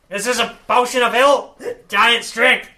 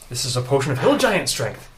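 First: It is said in a put-on character voice. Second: It is said in the speaker's natural voice.

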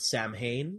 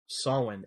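First: It is said the common English way. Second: It is said the Gaelic way. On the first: The speaker calls it wrong. "some people can pronounce it Samhain" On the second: The speaker calls it right. "the proper Gaelic pronunciation is Samhain"

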